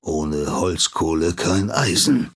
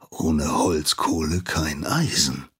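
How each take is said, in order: First: Grumbling smith. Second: Grumbling master. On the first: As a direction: growl it back without turning. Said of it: "brummt der Schmied zurück". (langsam brummend, Andeutung eines Schmieds) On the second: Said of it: "wird er brummen". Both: A narrator's reading.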